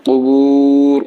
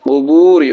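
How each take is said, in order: First: কুবুর with a long held "oo", stopping on r; pausal form. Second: Said in the usual way. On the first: Shown as a demonstration. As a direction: drop the final i of কুবুর and stretch the oo. (ওয়াকফে কুবুর লম্বা টেনে) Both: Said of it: "ওয়াকফ করলে কি হবে?".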